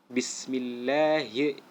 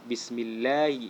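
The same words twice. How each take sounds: First: The h sound is clearly articulated. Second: The h sound is dropped or weakened. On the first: The speaker calls it right. "huruf H jangan sampai terlewatkan makhrajnya" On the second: The speaker calls it wrong. "Jangan kita baca bismillahi ya, salah itu"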